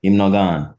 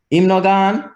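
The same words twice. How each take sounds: First: HIM NO GONE kept down, falling at GONE; statement intonation. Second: HIM NO GONE high, climbing to the end; contrasting intonation. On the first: Teacher showing the "has not left" meaning, falling statement intonation. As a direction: state HIM NO GONE without any lift. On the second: Teacher showing the "has indeed left" meaning, high rising intonation. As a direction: lift GONE sharply like a question. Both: Shown as a demonstration. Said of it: "what changed in the intonation".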